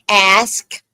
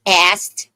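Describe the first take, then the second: First: "ask" with the S before the K; deliberate, drawn-out "ask"; careful pronunciation. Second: "asked" ending in "st", no K; slow "asked" with the K dropped; mispronounced ask. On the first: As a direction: say "ask" slowly, ending in a clear "sk". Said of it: "I said ask". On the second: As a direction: say "asked" as "ast". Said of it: "I did not say asked". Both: Shown as a demonstration.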